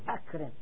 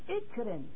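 First: The word begins with a firm 'a' vowel. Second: The word begins with a connecting 'i' vowel. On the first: The speaker calls it right. "جيب منه فعل الأمر أكرم" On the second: The speaker calls it wrong. "المفروض على طبق القاعدة هنا تكون ماذا؟ تكون اكرم"

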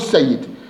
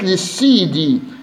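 First: The word ends with a consonant. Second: The word ends with an added i vowel. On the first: The speaker calls it wrong. "مو السيد" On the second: The speaker calls it right. "بمثل السيدي"

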